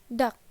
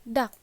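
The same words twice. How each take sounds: Both takes have the same delivery.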